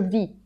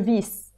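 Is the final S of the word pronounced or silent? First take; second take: silent; pronounced. First: The final S sound is silent. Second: The final S sound is pronounced. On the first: The speaker calls it right. "we don't pronounce the S. It's like a muted S" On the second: The speaker calls it wrong. "So he was saying"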